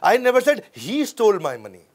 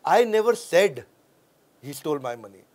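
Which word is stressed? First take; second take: he; said. First: The word he is stressed. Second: The word said is stressed.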